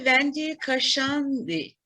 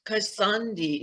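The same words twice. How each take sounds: First: Kashandi pronounced Ka-SHAN-di with sh. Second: Kasandi corrected to a clear s sound. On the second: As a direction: Kasandi said Ka-SAN-di, falling, with s. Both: Real, not acted. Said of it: "Is that correct".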